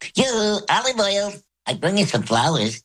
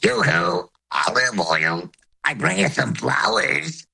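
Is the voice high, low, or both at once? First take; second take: high; both. First: It is said in a high voice. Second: High and low voices sound at once.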